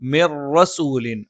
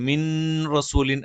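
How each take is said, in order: First: The n merges into the following r sound. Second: The n is pronounced clearly before the r. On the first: The speaker calls it right. "മണിക്കാതെ ചേർത്തോതണം" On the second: The speaker calls it wrong. "എന്ന് പറയാതെ"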